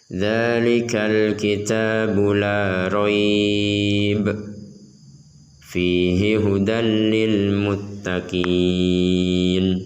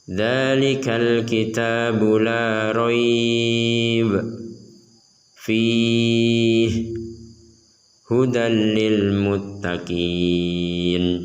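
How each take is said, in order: First: There is a pause after raib only. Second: There are pauses after both raib and fihi. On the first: "Contoh pertama" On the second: "ini contoh yang salah, jangan ditiru"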